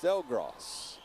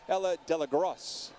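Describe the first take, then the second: First: The name has no extra middle vowel. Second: The name has an extra middle vowel. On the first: The speaker calls it right. "Delgros, not Delagros" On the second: The speaker calls it wrong. "not Delagros"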